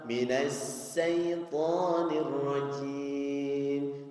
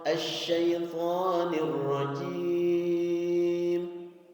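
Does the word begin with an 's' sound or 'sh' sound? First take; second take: s; sh. First: The word begins with a thin 's' sound. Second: The word begins with a full 'sh' sound. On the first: The speaker calls it wrong. "jangan sampai ... Sin. Beda makna" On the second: The speaker calls it right. "sya'nya sya' besar"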